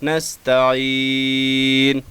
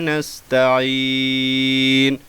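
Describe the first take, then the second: Both takes have the same delivery.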